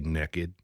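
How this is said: It is said with a Southern American accent. "you say naked ... that's the the southern coming out"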